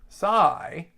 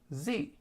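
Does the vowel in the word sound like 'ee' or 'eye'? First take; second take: eye; ee. First: The vowel sounds like 'eye'. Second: The vowel sounds like 'ee'. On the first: This is the English pronunciation. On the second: This is the Greek pronunciation.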